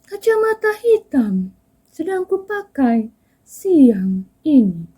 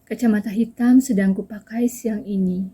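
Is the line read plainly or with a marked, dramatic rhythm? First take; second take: dramatic; plainly. First: It is read with a marked, dramatic rhythm. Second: It is read plainly, like ordinary speech. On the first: The speaker calls it wrong. "Saya kan bacanya bukan yang" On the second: The speaker calls it right. "Jadi bisa dibaca biasa saja gitu"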